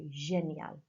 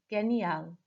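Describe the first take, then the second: First: The g is a soft sound. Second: The g is a hard sound. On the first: The speaker calls it right. "it has a soft sound, so génial" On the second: The speaker calls it wrong. "I obviously mispronounced the, the G there"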